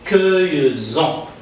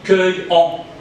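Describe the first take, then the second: First: A z sound links the verb to en. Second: No z sound links the verb to en. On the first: The speaker calls it right. "pour juste prononcer bien cette phrase ... on prononce un Z" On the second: The speaker calls it wrong. "si j'applique la règle, on dit cueillons"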